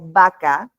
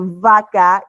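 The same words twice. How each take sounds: First: The first sound is made with both lips. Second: The first sound uses upper teeth on lower lip. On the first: The speaker calls it wrong. "y no vaca" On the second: The speaker calls it right. "deberíamos decir vaca"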